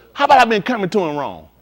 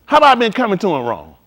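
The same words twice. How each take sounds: The two takes are said the same way.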